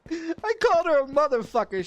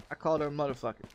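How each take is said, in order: First: Loud, high, cracking up; gleeful, high-pitched repeat between laughs; laughing boast. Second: Said in the usual way. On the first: Real, not acted. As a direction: crow it out through laughter.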